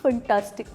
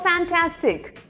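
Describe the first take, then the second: First: The first syllable sounds like 'fun'. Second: The first syllable sounds like 'fan'. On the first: The speaker calls it wrong. "Not फंटास्टिक" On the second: The speaker calls it right. "It's called फैंटास्टिक"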